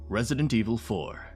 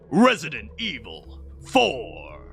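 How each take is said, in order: First: It is said in his normal voice. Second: It is said in a dramatic announcer voice.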